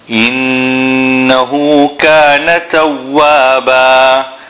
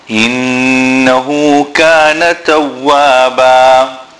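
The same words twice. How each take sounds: No difference in how they are said.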